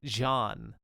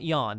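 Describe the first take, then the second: First: The name begins with a J sound. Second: The name begins with a Y sound. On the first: The speaker calls it wrong. "That's not how you pronounce his name" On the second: The speaker calls it right. "not Jan"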